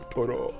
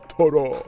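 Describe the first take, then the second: First: It is said in a plain voice. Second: It is said in a deeper, manlier voice.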